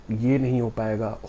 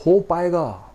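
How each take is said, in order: First: Mild defeated murmur of ये नहीं हो पाएगा; understated hopeless self-talk; doubtful. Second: हो पाएगा snapped higher and louder, falling firmly; upbeat correction, stress on हो; confident. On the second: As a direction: declare हो पाएगा with conviction. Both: Shown as a demonstration.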